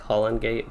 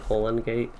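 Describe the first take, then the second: First: The first vowel is short, as in holly. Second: The first vowel is long, as in holy. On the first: This is how the speaker always said it. The speaker calls it wrong. "I've always thought it like Holland Gate" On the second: This is how the game's makers say it. The speaker calls it right. "I think they actually say Holland Gate"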